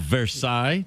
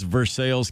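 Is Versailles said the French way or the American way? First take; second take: French; American. First: It is said with a French-style pronunciation. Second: It is said with an Americanized local pronunciation. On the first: It refers to the original place in France. "the original Versailles" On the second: It refers to the town in Kentucky. "It's Versailles, Kentucky"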